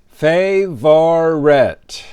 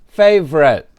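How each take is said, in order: First: The word is said slowly and in full. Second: The word is said fast and shortened.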